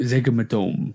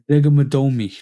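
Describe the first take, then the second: First: The name ends plainly with 'dome'. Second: The name ends with an extra 'ee' sound. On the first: The speaker calls it right. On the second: The speaker calls it wrong.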